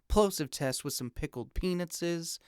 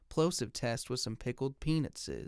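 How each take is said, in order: First: Much more of the low bass is cut. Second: The low bass is left fully intact. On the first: "And now here's the one hundred twenty hertz high pass filter" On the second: "Here's the microphone in flat mode"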